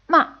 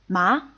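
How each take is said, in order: First: The pitch falls quickly and fades. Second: The pitch rises and grows stronger. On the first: "a short, quickly falling and fading tone" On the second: "a rising tone and it gets stronger"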